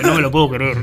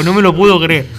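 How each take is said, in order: First: Said in the usual way. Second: Louder retold disbelief, stressing puedo. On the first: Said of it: "Y yo". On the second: Retelling a bottle accusation at a concert, disbelief said louder. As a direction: say "No me lo puedo creer" louder, leaning on "puedo". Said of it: "Yo dije".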